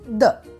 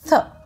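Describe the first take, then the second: First: The th sound is voiced, with the voice buzzing. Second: The th sound is unvoiced, with breath only. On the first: "which is called the voiced th" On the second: "which is called the unvoiced th"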